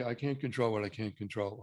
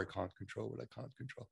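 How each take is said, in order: First: Said in the usual way. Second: Quiet mumble. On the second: Shown as a demonstration. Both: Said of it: "I want you to say".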